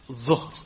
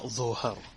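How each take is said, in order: First: The middle consonant has no vowel after it. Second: A vowel is added after the middle consonant. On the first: The speaker calls it right. "you have to have the sukoon on the middle letter. So it's dhuhr" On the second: The speaker calls it wrong. "not dhuhr"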